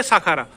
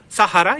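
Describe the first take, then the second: First: साखारा slowly as "saa-khaa-raa". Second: सहारा slowly as "sa-haa-raa"; H sounded. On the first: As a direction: put a KH inside साखारा. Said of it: "जो खोता का sound होता है". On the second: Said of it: "या तो है ले लो". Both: Shown as a demonstration.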